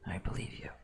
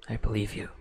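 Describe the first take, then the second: First: It is said warmly and sincerely. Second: It is said plainly, without much feeling.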